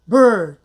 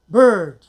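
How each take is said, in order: No difference in how they are said.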